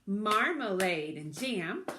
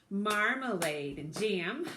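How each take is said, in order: The two takes are said the same way.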